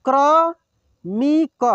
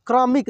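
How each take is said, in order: First: क्रमिक drawn out slowly, syllable by syllable; slow sounding out. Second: Said in the usual way. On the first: Shown as a demonstration. Teacher slowly sounds out क्रमिक for students. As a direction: stretch क्रमिक out slowly, louder. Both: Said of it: "एक एक मात्रा को अलग अलग करके".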